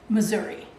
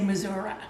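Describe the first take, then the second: First: It is said the standard, non-Arkansas way. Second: It is said the way Arkansas people say it.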